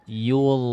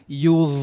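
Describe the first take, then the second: First: It is said plainly without a puff of air. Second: It is said with a strong puff of air. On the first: The speaker calls it right. "begitu saja" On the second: The speaker calls it wrong. "Kalau itu kan hembus banget, terasa banget hembusan nafasnya"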